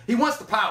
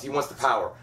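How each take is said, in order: First: Much higher, punched-up delivery; emphatic repeat. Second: Said in the usual way. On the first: Acted. Summing up what Peter Baelish wants, high emphatic repeat.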